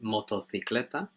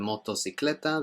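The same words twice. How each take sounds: First: It is said with a Spain Spanish accent. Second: It is said with a non-Spain Spanish accent. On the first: "In Spain, they'd pronounce it" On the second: "instead of"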